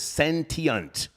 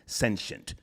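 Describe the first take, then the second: First: The word is said with a British pronunciation. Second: The word is said with an American pronunciation. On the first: "The British pronunciation is" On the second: "The American pronunciation is"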